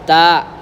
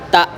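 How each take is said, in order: First: The final consonant is dragged out slightly. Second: The final consonant stops short and firmly. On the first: The speaker calls it wrong. "Tidak boleh agak diseret" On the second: The speaker calls it right. "Berakhirnya di sini"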